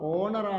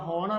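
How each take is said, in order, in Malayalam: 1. ഈ വാക്ക് സ്വരാക്ഷര ശബ്ദത്തിലാണ് തുടങ്ങുന്നത്. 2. ഈ വാക്ക് h ശബ്ദത്തിലാണ് തുടങ്ങുന്നത്. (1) "ഓണർ ആണ്, സ്വരാക്ഷരമാണ്" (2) "ഹോണർ ആണോ?"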